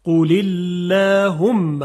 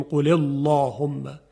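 First: قل اللهم slow and loud, with the lam light after the i; thin lam. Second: قل اللهم with a thick, emphatic lam; wrong heavy lam. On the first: Teacher models the correct thin lam. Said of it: "این خلاف فصاحته". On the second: Teacher shows how not to recite it. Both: Shown as a demonstration.

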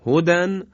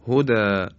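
First: هدن with the nunation sounded, higher and louder; tanween form. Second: هدا with the nun dropped, ending on a long "a"; pausal form. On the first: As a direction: say هدن ending clearly in "-dan". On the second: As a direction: stop on هدا and stretch the final alef. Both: Shown as a demonstration.

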